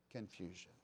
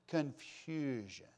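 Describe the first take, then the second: First: Confusion. repeated much softer and lower; hushed echo. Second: Confusion. drawn out slow and falling; drawn-out stress. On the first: Preacher echoing the word, hushed and low. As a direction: drop Confusion. to a near hush. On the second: Preacher lingering on the word confusion. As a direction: stretch confusion. out and let it fall. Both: Shown as a demonstration.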